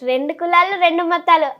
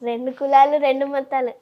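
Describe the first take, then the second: First: It is said in a happy, cheerful tone. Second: It is said in a shy, bashful tone. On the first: "ఇప్పుడు సంతోషంలో చెప్తా" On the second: "సిగ్గుపడుతూ చెప్పు"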